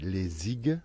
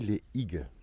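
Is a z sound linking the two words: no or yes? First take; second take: yes; no. First: A z sound links the two words. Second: No z sound links the two words. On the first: "si on fait la liaison" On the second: "Si on ne fait pas la liaison"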